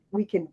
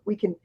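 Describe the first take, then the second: No difference in how they are said.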